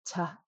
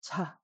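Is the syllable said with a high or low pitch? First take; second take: low; low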